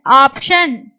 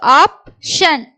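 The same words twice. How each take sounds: First: Said in the usual way. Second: Slow, split in two; syllable by syllable. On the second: Shown as a demonstration. Teacher sounds out the word for learners, syllable by syllable. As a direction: pause between the syllables of "option".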